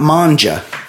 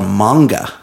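First: The middle consonant is a soft j sound. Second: The middle consonant is a hard g sound. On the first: The speaker calls it wrong. "not manja. Manja is like Italian sounding" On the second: The speaker calls it right. "it's called manga"

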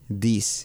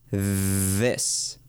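First: It begins with a d sound. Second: It begins with a th sound. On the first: The speaker calls it wrong. "Muchas personas dicen this, this, this, pero no es una D como en español" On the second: The speaker calls it right. "decimos con la lengua afuera, sacando la lengua y por debajo de los dientes frontales"

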